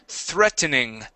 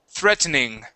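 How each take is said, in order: No difference in how they are said.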